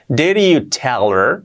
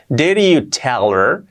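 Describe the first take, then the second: First: The words run together, the D like a soft R. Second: The same.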